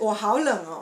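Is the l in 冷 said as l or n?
l. It is said with a clear l in 冷.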